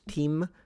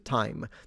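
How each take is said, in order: First: The vowel sounds like the ee in see. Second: The vowel sounds like the eye in my. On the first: This is the earliest historical pronunciation. "initially the pronunciation was team" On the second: This is the modern pronunciation. "which evolved into time"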